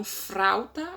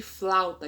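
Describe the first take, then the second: First: "frauta", with an r in place of the l; colloquial frauta. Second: Said in the usual way. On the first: Shown as a demonstration. Teacher showing "frauta" for "flauta". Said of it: "ao invés de flauta". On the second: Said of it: "ao invés de".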